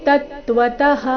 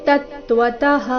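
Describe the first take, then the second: Both takes have the same delivery.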